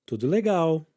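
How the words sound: It is said with a statement intonation. It answers that everything is fine. "this time with the intonation of a statement"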